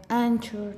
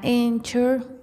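First: "Anchor" with an open "ah" at the start; Spanish-style A. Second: "Anchor" with the A said like English "ay"; English-style A. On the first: Podcaster offering the other option, "Anchor" with an open "ah". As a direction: say "Anchor" opening on a plain Spanish "a". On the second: Podcaster unsure of the name, "Anchor" with an English "ay". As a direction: say "Anchor" opening on a long "ay" sound. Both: Shown as a demonstration. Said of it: "no sé cómo se pronuncie".

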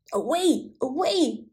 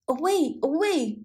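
First: Hoarse barked warning; barking old dog. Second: Hoarse barked warning, pitched up; barking old dog. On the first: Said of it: "barked the old yard dog". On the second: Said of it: "barked the yard dog". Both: Acted.

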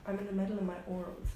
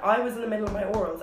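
First: Said in the usual way. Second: Firmer, quick retort stressing I WAS; emphatic protest. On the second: Retold or imitated. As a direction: insist on "I was in the middle of my orals" with force. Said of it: "I literally went".

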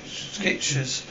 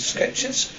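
First: Said in the usual way. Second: Breathy, high horrified repeat of Skechers; appalled echo. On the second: Acted. Waitress hears cheap shoes suggested, appalled. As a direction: recoil at the word Skechers like an insult. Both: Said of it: "How dare you?".

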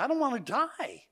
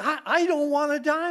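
First: Put-on high, small child's fearful voice; boy at bedtime, high and frightened; frightened little boy. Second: Put-on high, louder, near-crying child's plea; boy pleading with his uncle, high and loud; upset little boy. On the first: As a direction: play the scared child refusing. Boy's fearful answer retold. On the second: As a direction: let the child's fear spill over. Boy repeats, more upset.

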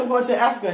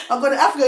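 First: Said in the usual way. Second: Louder second telling of the destination; louder repeat. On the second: Retold or imitated. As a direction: say it again, louder and clearer. Repeating for the stunned driver.

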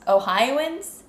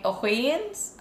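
First: "Ohioans" said as oh-HIGH-oh-uns, higher and rising; corrected pronunciation. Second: "Ohioans" said as oh-HAY-uns, rising; tentative pronunciation. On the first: Co-host retrying the word, "Ohioans" as oh-HIGH-oh-uns, questioning. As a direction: try "Ohioans" with a clear HIGH-oh. Second try at saying Ohioans. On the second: Co-host unsure of the word, "Ohioans" tried as oh-HAY-uns. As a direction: try "Ohioans" with HAY in the middle. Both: Shown as a demonstration.

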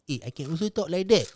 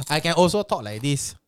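First: Another voice. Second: Another put-on voice. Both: Shown as a demonstration.

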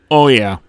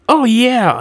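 First: Said in the usual way. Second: High, loud little alien squeak; high-pitched grunt chirp; quirping grunt. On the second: A narrator's reading. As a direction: pipe up as an excited small creature. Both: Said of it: "another grunt quirped".

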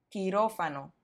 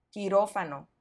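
The two takes are said the same way.

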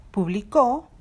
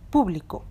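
First: Publicó with the final CÓ punched louder; stress on last syllable. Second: Público with PÚ stressed, the rest falling away; stress on third-last syllable. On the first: Teacher giving learners an example of palabras agudas, publicó stressed on CÓ. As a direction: say pu-bli-CÓ, stressing the end. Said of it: "está en la última sílaba". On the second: Teacher giving learners an example of palabras esdrújulas, público stressed on PÚ. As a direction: say PÚ-bli-co, stressing the start. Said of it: "está en la antepenúltima sílaba". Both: Shown as a demonstration.

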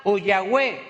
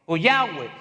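First: Said in the usual way. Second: Yahweh, deep and Hebrew-sounding; "Yahweh" rendered lower, Hebrew style; Yahweh in a Hebrew manner. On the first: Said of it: "o Yahweh (said twice)". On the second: Shown as a demonstration. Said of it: "o Yahweh (second take)".

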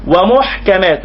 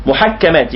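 First: ومحكمات as wa-muḥkamāt, single kaf; silent-kaf-vowel reading. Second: محكمات as muḥakkamāt, kaf doubled; doubled-kaf reading. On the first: Teacher offering the alternative reading of the verse, single kaf. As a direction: close the ḥ straight onto k in ومحكمات. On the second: Teacher giving the first reading of the verse, doubled kaf. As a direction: stress the long double k in محكمات. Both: Shown as a demonstration. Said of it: "يمكن أن نقول ومحكمات".

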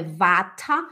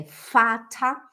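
First: Vata starting with a buzzing v; voiced v. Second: Fata starting with a clear f; slowly, "fata" with f for the written V; f sound. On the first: Teacher showing the mistake, vata with voiced v. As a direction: say "vata" with a v, not f. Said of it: "não é vata". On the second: Teacher correcting, fata said slowly with an f. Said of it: "é fata". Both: Shown as a demonstration.

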